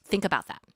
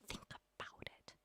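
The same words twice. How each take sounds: First: Said in the usual way. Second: Unvoiced, slow whisper of think about it; a slow hushed urging. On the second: Shown as a demonstration. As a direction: whisper it so they ponder.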